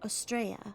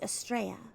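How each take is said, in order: No difference in how they are said.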